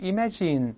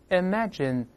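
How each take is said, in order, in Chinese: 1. 最后一个元音是长而紧的。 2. 最后一个元音是短而松的。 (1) "不是imagine" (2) "是imagine"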